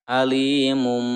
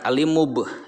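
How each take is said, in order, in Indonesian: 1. Kata itu berakhir dengan bunyi m sengau. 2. Kata itu berakhir dengan bunyi b. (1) "Tetapi ke mim" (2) "Jangan alimub, jangan ya"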